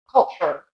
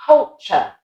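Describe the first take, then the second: First: American culture with a final R; American accent. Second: British Culture ending in "chuh"; British accent. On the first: Teacher contrasting culture with British, American accent. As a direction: lower culture ending "cher", American. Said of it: "an American accent". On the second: Teacher repeating Culture for learners, British accent. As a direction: Culture split evenly, no R, British. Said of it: "And then an American accent". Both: Shown as a demonstration.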